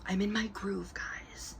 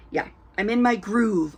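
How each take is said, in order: First: A secret, whispered aside; playful whisper. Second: Said in the usual way. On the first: Real, not acted. Vlogger whispering to her viewers after the light goes out, playful whisper. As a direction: whisper it softly to the camera.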